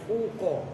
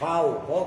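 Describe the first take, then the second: First: The first syllable has a plain 'u' vowel. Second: The first syllable has an 'au' diphthong. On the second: "dibaca fathah"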